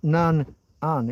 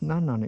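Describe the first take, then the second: First: It is split into two separate parts. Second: It is said as one joined word. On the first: The speaker calls it wrong. "it's not" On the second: The speaker calls it right. "it's just a single word"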